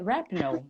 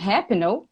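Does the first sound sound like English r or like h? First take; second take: English r; h. First: The first sound is an English r. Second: The first sound is an h-like sound. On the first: The speaker calls it right. "Mas o nome dela é Rapinoe" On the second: The speaker calls it wrong. "algumas pessoas falam Rapinoe, happy, happy"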